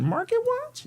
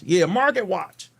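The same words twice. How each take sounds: First: "Market Watch?" very high, rising like a question; mock-puzzled lift on "Market Watch"; question intonation. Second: Said in the usual way. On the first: Shown as a demonstration. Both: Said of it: "I said it like a question".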